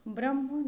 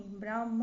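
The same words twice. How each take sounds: First: ब्रह्म with short vowel; wrong short A. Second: ब्राह्म with long AA; correct long A. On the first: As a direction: say ब्रह्म as "bramh". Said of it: "नहीं". (ब्रह्म में छोटा "अ") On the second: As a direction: say ब्राह्म as "braamh". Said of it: "होगा". (ब्राह्म में लंबा "आ") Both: Shown as a demonstration.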